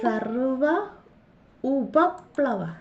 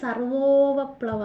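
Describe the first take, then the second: First: The two words are said separately, unjoined. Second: The two words are merged into one word.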